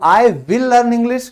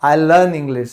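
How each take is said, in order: First: "I will" said as two words, slow and a bit higher; "I will" stretched out in full, both words separate; full form I will. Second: "I'll" as one short syllable; "I'll" run into a single quick syllable; contracted I'll. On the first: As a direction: spell out "I will learn English" word by word, the form never heard. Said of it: "कभी नहीं सुनाई देगा". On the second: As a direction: say "I'll learn English" with "I'll" clipped together. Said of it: "ये बोला जाता है I'll". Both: Shown as a demonstration.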